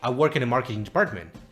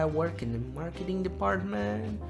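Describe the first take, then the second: First: The voice sounds confident and assured. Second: The voice sounds hesitant and unsure. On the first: The speaker comes across as a competent professional. The speaker calls it right. "the first person sounds like a professional" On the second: The speaker does not come across as a professional. The speaker calls it wrong. "the second person doesn't sound like a professional at all"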